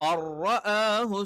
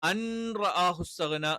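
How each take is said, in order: First: The n merges fully into a doubled r. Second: The n is pronounced separately before the r. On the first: The speaker calls it right. "ഇദ്ഗാമുൻ ബിലാ ഗുന്ന" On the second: The speaker calls it wrong. "എന്നുള്ളതൊക്കെ തെറ്റാണ്"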